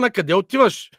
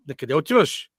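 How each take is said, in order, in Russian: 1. Вопрос произносится с повышенным голосом. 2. Вопрос произносится нормальной громкостью.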